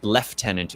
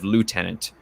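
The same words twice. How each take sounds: First: It uses the upper-class British pronunciation. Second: It uses the ordinary, non-upper-class pronunciation. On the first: "the upper class people pronounce it lieutenant" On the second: "instead of lieutenant"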